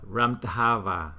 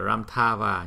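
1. Phụ âm ở giữa là 'dh' bật hơi có rung. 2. Phụ âm ở giữa nghe giống 'th', đọc nhanh. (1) "nhưng mà không phải là tha" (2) "mình đọc nhanh là Ramthava"

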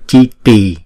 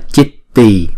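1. Âm t ở giữa ngắn và đơn. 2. Âm t ở giữa được giữ dài, đọc đôi. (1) "mà là Chitti" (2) "Không phải là Chitti"

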